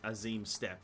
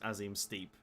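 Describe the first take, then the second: First: The last word rhymes with step. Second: The last word rhymes with keep. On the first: The speaker calls it right. "it's pronounced the as Azim Steppe" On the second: The speaker calls it wrong. "not the Azim as Azim Steep"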